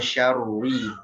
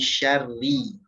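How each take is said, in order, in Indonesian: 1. Kata syarri diucapkan tebal dan berat. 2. Kata syarri diucapkan tipis dan ringan. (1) "Jangan syarri" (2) "Jadi tipiskan syarri. ... tapi syarri. Langsung tipis"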